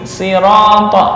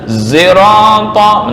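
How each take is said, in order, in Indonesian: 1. Diawali dengan bunyi s biasa yang ringan. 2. Diawali dengan s yang condong ke z. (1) "dengan membaca sin" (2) "shad dibaca za"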